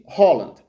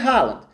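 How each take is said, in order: First: The name is said the Norwegian way. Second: The name is said the international way. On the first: This is how people in Norway say the name. "na Noruega, me chamam de" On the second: This is how people outside Norway say the name. "fora da Noruega, no resto do mundo, me chamam de"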